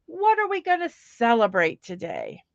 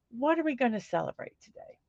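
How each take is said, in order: First: Said in the usual way. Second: Softer and fast, musing to herself; a soft, quick repeat to herself. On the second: Shown as a demonstration. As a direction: mutter the question again under her breath, quickly.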